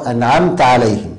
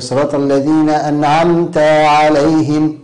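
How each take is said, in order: First: أنعمت with a brief final "ta"; short fatḥa. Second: أنعمت ending in a long "tā"; over-lengthened fatḥa. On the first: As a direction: clip the last vowel of أنعمت short before عليهم. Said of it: "صواب". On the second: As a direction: stretch the final vowel of أنعمت into an alif. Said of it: "إشباع الفتحة في التاء". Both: Shown as a demonstration.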